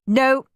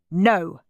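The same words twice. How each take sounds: First: Higher-pitched mum saying no; quick high no from mum; mum's refusal. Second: Lightly voiced dad saying no; a hint of a firm dad; dad's refusal. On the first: Mum refusing, contrasted with Dad. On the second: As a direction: echo the refusal at an ordinary pitch. Dad echoing Mum's refusal. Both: A narrator's reading.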